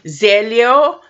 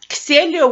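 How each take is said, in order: First: The name begins with a Z sound. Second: The name begins with a non-Z sound. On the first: The speaker calls it wrong. "usually you say it with a Z" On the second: The speaker calls it right. "would be a more accurate because that's kind of like based on ancient Greek"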